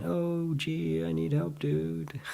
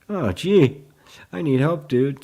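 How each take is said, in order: First: High, soft, held-note whine; soft mock plea. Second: High, loud mock exclamation; mock plea. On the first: Teacher echoing the creeping conditioned thought, soft mock plea. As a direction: float it up high and quiet, jokingly helpless. Repeats the thought, then laughs. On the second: Teacher reading out a student's message, loud mock plea. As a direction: blurt it out in playful dismay. Acting out the creeping conditioned thought.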